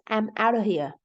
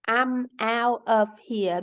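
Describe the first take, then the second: First: The word 'of' is reduced to 'uh'. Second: The word 'of' is said in full.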